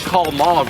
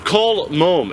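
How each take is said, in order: First: It is said in a normal American accent. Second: It is said in a put-on British accent. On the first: The voice assistant does not understand it. The speaker calls it wrong. "certain words I say in an American accent" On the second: The voice assistant understands it. The speaker calls it right. "I literally talk to Siri with an accent"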